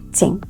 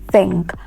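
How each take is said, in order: First: The word begins with an s sound. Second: The word begins with a th sound. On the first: The speaker calls it wrong. "not think... do not realize your T H words like the S" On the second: The speaker calls it right. "That word is correctly pronounced think"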